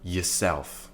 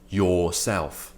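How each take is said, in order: First: The first syllable has a reduced schwa vowel. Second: The first syllable has a full, strong vowel. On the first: The speaker calls it right. "This is the weak form of yourself" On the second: The speaker calls it wrong. "we're not saying yourself"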